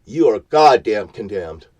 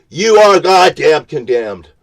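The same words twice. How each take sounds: First: Said in the usual way. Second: High, loud, hammering each word; a furious preacher's shout; shouted condemnation. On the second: Real, not acted. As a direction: thunder the judgment down. Shouted verdict, then repeated.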